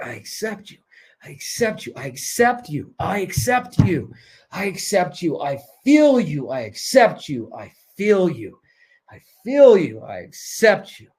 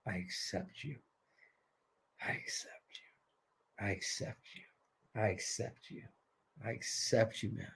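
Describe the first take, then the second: First: Heartfelt mantra. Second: Very soft, low, near-whispered repetition; hushed mantra. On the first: Coach leading the group to say it from the heart, building. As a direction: chant it with growing conviction. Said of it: "Say it with your heart". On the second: Coach leading the group in self-acceptance, hushed. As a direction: breathe it out as a private chant. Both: Shown as a demonstration.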